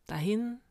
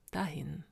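First: "Dahin" lifted at the end; rising lament. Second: "dahin" softer and falling away; resigned echo. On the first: Narrator mourning old comrades, "Dahin" with rising tune. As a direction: let "Dahin" rise, left hanging. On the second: Narrator mourning old comrades, "dahin" softly resigned. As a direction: let "dahin" sink softly. Second, resigned answer to lament. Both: A narrator's reading.

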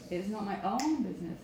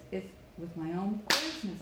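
First: "own" gets the peak, "business" trails; stress on OWN. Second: "business" as the strong end of the phrase; stress on BUSINESS. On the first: Coach showing students the take to avoid, "own" stressed. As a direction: punch "own" rather than "business". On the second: Coach correcting toward the end, "business" stressed. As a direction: carry the weight through to "business". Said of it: "get to the end and get nice and loud". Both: Shown as a demonstration.

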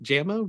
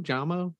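First: Jamo said as JAM-oh, as in strawberry jam; short "a" in Jamo, raised as a question; questioning pronunciation. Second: Jamo said as JAH-mo, higher; alternative pronunciation. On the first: Host asking co-hosts about a nickname, questioning pronunciation. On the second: Host asking co-hosts about a nickname, alternative pronunciation. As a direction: open "ah" in Jamo, offered as the other option. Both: Shown as a demonstration. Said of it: "How do you pronounce the nickname".

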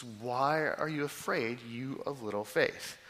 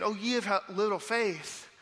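First: Slowly and deliberately; a slow measured read of scripture; slow, weighty reading. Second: Jesus soothing his terrified disciples, tender; compassionate. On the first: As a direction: lean into each word slowly. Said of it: "how we should not hear this". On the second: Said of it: "moved with compassion". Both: Shown as a demonstration.

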